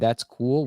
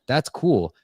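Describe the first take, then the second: First: It is said without any real excitement. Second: It is said with real excitement.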